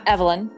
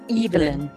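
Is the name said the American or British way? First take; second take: American; British. First: The name is said in an American way. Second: The name is said in a British way. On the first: "Not Evelyn" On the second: "it's also how the British pronounce it"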